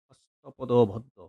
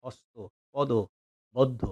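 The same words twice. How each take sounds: First: হস্তপদবদ্ধ drawn out slowly as one whole word; slow careful word. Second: হস্ত, পদ, বদ্ধ broken into separate parts with pauses; split into parts. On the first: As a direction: stretch হস্তপদবদ্ধ out slowly, every sound clear. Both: Shown as a demonstration. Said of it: "এটা হলো সংস্কৃতি ভাষা".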